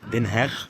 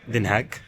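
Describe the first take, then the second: First: The name ends with a throaty 'kh' sound. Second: The name ends without a throaty 'kh' sound. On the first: "اخرها خ" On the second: "في ناس بتنطقها دنهاج"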